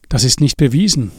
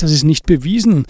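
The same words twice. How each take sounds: First: Said in the usual way. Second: Incredulous echo. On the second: Acted. Andi echoes in disbelief.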